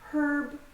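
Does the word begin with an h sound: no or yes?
yes. The word begins with an h sound. "In British English, they pronounce it herb"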